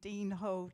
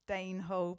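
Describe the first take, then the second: First: The first word has a long ee vowel. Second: The first word has a long ay vowel.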